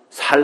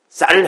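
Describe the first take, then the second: First: The word begins with a plain 's' sound. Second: The word begins with a tense 'ss' sound. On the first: The speaker calls it wrong. "살 하면 다 죽이는 것 같잖아요" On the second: The speaker calls it right. "쌀 해봐"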